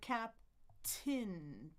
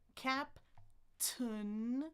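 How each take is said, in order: First: The last syllable sounds like 'tin'. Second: The last syllable sounds like 'tun'.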